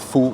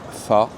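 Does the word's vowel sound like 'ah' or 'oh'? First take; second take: oh; ah. First: The vowel sounds like 'oh'. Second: The vowel sounds like 'ah'. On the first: The speaker calls it wrong. "ça s'écrit faux" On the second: The speaker calls it right. "ça se prononce F A"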